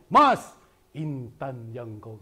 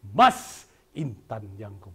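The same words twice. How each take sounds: First: "Mas" punched loud, "Intan Jangkau" slowed; right way. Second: Said in the usual way. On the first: Shown as a demonstration. Teacher showing pupils the lively reading. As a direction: stress "Mas", then slow down. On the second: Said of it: "jangan, jangan".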